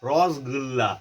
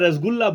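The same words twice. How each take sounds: First: It is said with a full, rounded mouth. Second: It is said plainly, without a full mouth. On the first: This is how people from Bengal say it. "એ લોકો બોલે ... મોં ભરીને બોલે" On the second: This is how local people say it. "આપણે રસગુલ્લા બોલીએ"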